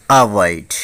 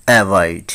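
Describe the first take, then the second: First: অ্যাভয়েড opened with "a", as in "a-vait"; corrected pronunciation. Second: অ্যাভয়েড opened with a flat "e" as in "evait"; common mispronunciation. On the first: Teacher correcting learners, অ্যাভয়েড starting with "a". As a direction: say অ্যাভয়েড with an "ah" first vowel. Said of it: "এই শব্দটির উচ্চারণ হবে". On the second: Teacher showing learners the common way, অ্যাভয়েড starting with "ae". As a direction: say অ্যাভয়েড with "ae" as its first vowel. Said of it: "আমরা উচ্চারণ করে থাকি". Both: Shown as a demonstration.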